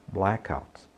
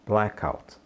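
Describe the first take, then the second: No difference in how they are said.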